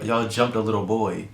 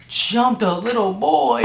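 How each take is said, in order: First: Said in the usual way. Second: High, slow outraged echo; shocked disbelief. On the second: Retold or imitated. Son hears the principal's accusation, outraged high disbelief. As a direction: repeat it in stunned outrage.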